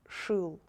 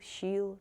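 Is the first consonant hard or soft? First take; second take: hard; soft. First: The first consonant is pronounced hard. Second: The first consonant is pronounced soft. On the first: The speaker calls it right. "these letters should be pronounced only hard" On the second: The speaker calls it wrong. "Please don't try to pronounce them softer, like"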